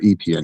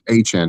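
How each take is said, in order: First: The name is pronounced like Etienne. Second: The name is pronounced like Achan. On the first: The speaker calls it wrong. "not Etienne" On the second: The speaker calls it right. "it's Achan"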